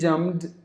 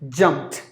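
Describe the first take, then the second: First: The word ends with a d sound. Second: The word ends with a t sound. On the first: The speaker calls it wrong. "some of the E S L speakers may pronounce the word as jumped or maybe jumped just because there is a D jumped like that" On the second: The speaker calls it right. "the T is pronounced like the T"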